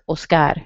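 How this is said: It is said with a Spanish pronunciation.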